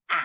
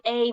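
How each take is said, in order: First: A said short, as in cat, a; short A sound. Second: A said as its name, ay; long A letter name. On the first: To the class, showing the short A, as in cat. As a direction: say A short like in happen. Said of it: "we're saying A". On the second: To the class, the wrong long A sound, ay. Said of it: "we're not saying A". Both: Shown as a demonstration.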